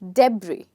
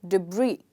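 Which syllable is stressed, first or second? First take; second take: first; second. First: The stress is on the first syllable. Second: The stress is on the second syllable. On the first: The speaker calls it wrong. "If I stress the first part" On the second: The speaker calls it right. "if I stress the second part"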